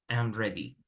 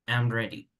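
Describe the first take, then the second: Both takes have the same delivery.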